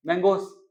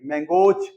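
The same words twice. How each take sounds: First: "मैंगोस" rushed, with a weak final s; teacher shows the rushed "मैंगोस"; wrong plural demo. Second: "मैंगोज" with a stressed, voiced z ending; teacher models the stressed "मैंगोज"; correct plural demo. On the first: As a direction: hurry through "मैंगोस" and drop the stress. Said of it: "जल्दी बोल के हटना पड़ता है". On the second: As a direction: lean on the end of "मैंगोज". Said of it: "plural में जो है stress पड़ना चाहिए". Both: Shown as a demonstration.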